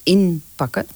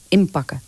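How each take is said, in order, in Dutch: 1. De medeklinker voor de p is een n. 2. De medeklinker voor de p is een m. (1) "Dan zeggen mensen nooit inpakken. I-N van Nico" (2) "Maar we zeggen altijd I Maria pakken"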